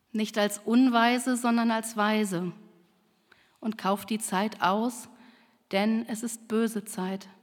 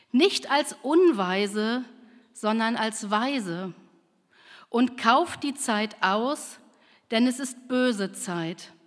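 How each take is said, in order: No difference in how they are said.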